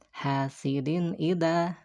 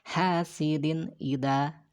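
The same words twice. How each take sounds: First: The n sound is pronounced clearly and distinctly. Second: The n sound is pronounced clearly and distinctly.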